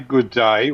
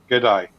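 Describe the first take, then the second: First: Both words are said fully and separately. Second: The words are run together, dropping sounds. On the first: The speaker calls it wrong. "we don't say good day" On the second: The speaker calls it right. "We say good day. Leave the letters out"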